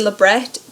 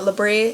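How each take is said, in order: First: The word is said the English way. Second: The word is said the French way. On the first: The speaker calls it right. "I say labret because it's pronounced that way" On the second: The speaker calls it wrong. "It's not labre. It is not a French term"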